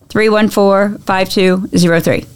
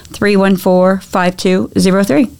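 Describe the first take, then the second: The two takes are said the same way.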